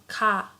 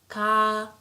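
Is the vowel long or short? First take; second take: short; long. First: The vowel is short. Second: The vowel is held long.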